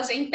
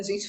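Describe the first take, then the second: First: "gente" wrongly said gen-TÉ; stress on last syllable. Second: Said in the usual way. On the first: Shown as a demonstration. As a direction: land hard on an open TÉ in "gente". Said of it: "Ninguém fala gente". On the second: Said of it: "a gente fala gente".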